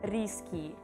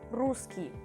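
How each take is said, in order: First: The first vowel sounds like an English 'i'. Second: The first vowel is a Russian 'u' sound. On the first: The speaker calls it wrong. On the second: The speaker calls it right.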